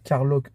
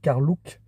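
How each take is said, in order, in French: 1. La deuxième syllabe ne se prononce pas 'look'. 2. La deuxième syllabe se prononce 'look'.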